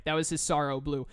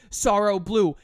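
First: Said in the usual way. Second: Louder, hammed-up attack name; hammed-up move shout; dramatic attack call. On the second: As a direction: announce Sorrow Blue like a special move.

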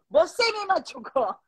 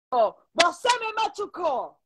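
First: Slow broken Spanish, Brazilian lilt, half laughing; imitated Portuguese speaker. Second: Slow, broken Spanish with a Brazilian lilt; imitated Portuguese speaker. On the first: The boyfriend yelling his complaint, in mock Portuguese accent. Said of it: "le empieza a gritar". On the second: Retelling the Brazilian boyfriend's words, in mock Portuguese-accented Spanish. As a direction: mimic the Brazilian boy's clumsy Spanish, slowly. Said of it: "Y le digo".

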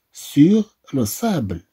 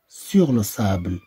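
First: "Sur" set apart, then "le sable"; split phrase. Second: Said in the usual way. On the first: Shown as a demonstration. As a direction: pause after "Sur" before saying "le sable".

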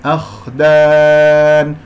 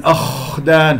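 First: "أخدان" with a clean flowing kh and long held aa; correct kha. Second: "أخدان" with a long, exaggerated rasp on kh; wrong snoring kha. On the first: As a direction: chant "أخدان" slowly, kh unforced, vowel stretched. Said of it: "انتبهوا، أخدان". (خاء سليمة ومد في "أخدان") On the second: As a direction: overdo the scrape of kh in "أخدان", as a mistake. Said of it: "هذا الشخير أجعله في صوت الخاء". (شخير مبالغ في خاء "أخدان") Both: Shown as a demonstration.

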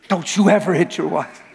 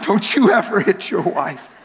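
First: Said in the usual way. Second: Laughing. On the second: Real, not acted.

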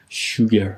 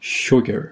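First: "sugar" with a long, tense "oo" in the first syllable, like "shooger"; mispronounced sugar. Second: "sugar" with a short, lax vowel between "o" and "oo", as in "book"; correct sugar vowel. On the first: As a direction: say "sugar" wrongly as "shoo-ger", drawn out. (تلفظ اشتباه sugar با «او»ی کشیده، «شوگر») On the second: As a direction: say "sugar" properly, first vowel short and relaxed. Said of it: "یه صدایی هست بین او و او". (تلفظ درست sugar با صدایی کوتاه بین «اُ» و «او») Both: Shown as a demonstration.

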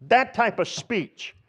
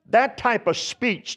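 First: "That type of speech" slow and higher, with "That" stressed; emphatic slow stress. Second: Said in the usual way. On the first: Shown as a demonstration. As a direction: lean hard on "That" and draw the phrase out. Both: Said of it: "That puts emphasis on it".

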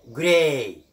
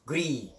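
First: جراي said "gray", with a long ay; correct long ay. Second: جري said "gree", with ee in place of ay; mispronounced ee. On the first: Teacher gives the correct word, long ay. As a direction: hold the "ay" at the end of جراي. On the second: Teacher shows what we don't say, ee ending. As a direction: end جري on a plain "ee", as the mistake. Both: Shown as a demonstration. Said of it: "ولا نقول جري".

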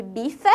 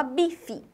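First: "bife" slowly with the final E fully sounded; spelling pronunciation. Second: "bife" with the final E sounding like I; spoken pronunciation. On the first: Teacher contrasting writing with speech, spelling pronunciation. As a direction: say "bife" as written, ending in fé. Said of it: "A gente escreve bife". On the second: Teacher showing how the written word is spoken, everyday pronunciation. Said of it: "e fala bife". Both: Shown as a demonstration.

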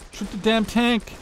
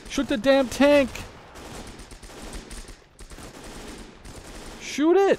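First: Angry shout. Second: Frustrated yelling. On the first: Repeating order, frustrated. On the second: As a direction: scream the order. Repeat, rising frustration. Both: Real, not acted.

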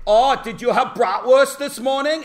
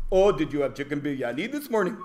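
First: Put-on loud, high German accent; hammed-up German accent, cheerfully asking; mock German accent. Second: Quick, lilting put-on Indian accent; lightly hammed-up Indian accent; mock Indian accent. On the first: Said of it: "And you could say". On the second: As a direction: imitate an Indian accent, asking casually. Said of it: "if I'd done it with that accent".

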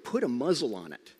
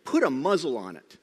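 First: Said in the usual way. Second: "Put a muzzle on it" said louder, firm and clipped; stern command. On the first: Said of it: "And then the next word". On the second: Retold or imitated. Preacher repeating Jesus' rebuke of the wind, louder and firm. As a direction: hit "Put" hard like an order. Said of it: "Literally what it is".

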